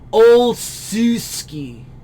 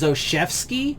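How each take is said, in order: First: It is sounded out letter by letter. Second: It is said the usual way, like Oshevsky. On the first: "if I was trying to pronounce this just based off of like pronunciation of the letters" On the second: "the way I hear this dude's name pronounced every time"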